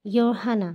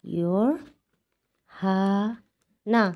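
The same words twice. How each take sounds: First: Said in the usual way. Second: your হানা stretched slowly as "yor... ha... na"; syllable by syllable. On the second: Shown as a demonstration. Teacher sounding out Korean eleven for learners, your হানা very slow. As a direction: pull your হানা apart with long pauses.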